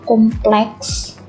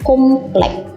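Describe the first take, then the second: First: The word ends with an s sound. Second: The word ends without an s sound. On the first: The speaker calls it right. "menggunakan S" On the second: The speaker calls it wrong. "Kita sering mendengar komplek ya"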